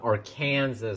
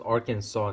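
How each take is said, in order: First: The name ends like the word Kansas. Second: The name ends with a 'saw' sound. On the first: The speaker calls it wrong. "not Arkansas" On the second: The speaker calls it right. "pronounced Arkansas"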